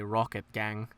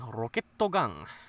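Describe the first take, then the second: First: Rocket is pronounced the English way. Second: Rocket is pronounced the Japanese way. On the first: "you never hear them say Rocket Gang" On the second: "You hear them say Roketto Gang"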